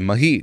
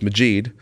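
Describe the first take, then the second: First: The middle consonant sounds like an H. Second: The middle consonant sounds like the J in magic. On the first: "they say the J like an H" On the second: "like magic"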